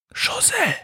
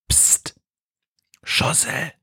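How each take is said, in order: First: Leise gehauchter Ruf der Hexe; flüsternd. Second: Scharf gezischtes, tonloses Flüstern; zischend. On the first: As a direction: den Namen vorsichtig flüstern. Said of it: "flüstert Befana". (leises Flüstern) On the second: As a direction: leise zischend zur Aufmerksamkeit mahnen. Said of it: "zischt die Hexe". (gezischter Flüsterruf) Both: A narrator's reading.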